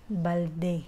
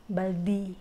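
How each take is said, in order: First: Balde with a clear final e, as in the Philippines; Filipino balde. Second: Baldi ending in ee, the Indian way. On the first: Filipino vlogger showing how home says balde, clear e. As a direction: say balde ending in open e. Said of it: "We use balde". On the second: Vlogger showing how India says baldi, final ee. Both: Shown as a demonstration.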